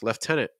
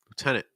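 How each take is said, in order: First: It is said with a British pronunciation. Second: It is said with an American pronunciation. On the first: "In British English, it's pronounced lieutenant" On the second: "in American English, it's lieutenant"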